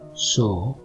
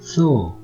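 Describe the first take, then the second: First: The first consonant sounds like English s. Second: The first consonant sounds like English th. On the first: "twice with a Latin American accent" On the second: "twice with a Spanish accent"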